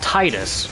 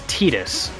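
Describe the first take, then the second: First: The first syllable sounds like the word tide. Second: The first syllable does not sound like tide. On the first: The name would echo the water theme. The speaker calls it right. "His name should be pronounced Titus, right? Like tide, the water" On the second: This is the official pronunciation. The speaker calls it wrong. "But it's not. It's it's Tidus"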